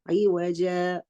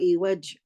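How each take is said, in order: First: The word ends with a lengthened a vowel. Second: The word ends abruptly on a consonant. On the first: The speaker calls it right. "I read it as evaja" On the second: The speaker calls it wrong. "or evaj"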